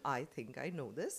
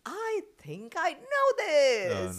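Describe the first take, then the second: First: It is said flatly, as part of a sentence. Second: It is said with more energy and passion.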